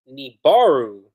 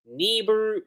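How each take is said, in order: First: "Nibaru" with a loud, stressed BAR; corrected name. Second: "Nibiru" with a short, unstressed middle; first attempt at name. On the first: Reviewer settling on their own way, "Nibaru" stressed on BAR. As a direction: say "Nibaru" firmly as nee-BAR-oo. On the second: Reviewer trying the villain's name, "Nibiru" with reduced middle. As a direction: say "Nibiru" tentatively, higher, middle syllable reduced. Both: Shown as a demonstration. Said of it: "That's how I say it".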